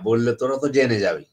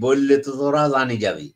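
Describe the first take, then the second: First: It is said in standard Bengali pronunciation. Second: It is said in a Comilla-Noakhali regional accent.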